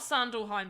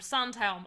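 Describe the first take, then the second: First: The name is said with three syllables. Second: The name is said with two syllables. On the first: The speaker calls it wrong. "Not Sandalheim" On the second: The speaker calls it right. "I said it right!"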